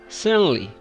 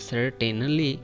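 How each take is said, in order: First: The T sound in the middle is dropped. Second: The T sound in the middle is pronounced. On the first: The speaker calls it right. "but we should say it certainly. Just skip the T sound" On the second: The speaker calls it wrong. "This word looks like it is saying that certainly"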